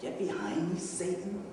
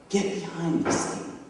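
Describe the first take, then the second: First: Softer, questioning echo; imagined rebuke. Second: Restrained, firm command; stern rebuke. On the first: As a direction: repeat the rebuke quietly with a rising end. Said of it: "imagine Jesus saying to you". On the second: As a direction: dismiss him firmly without shouting. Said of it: "he rebukes Peter". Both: Retold or imitated.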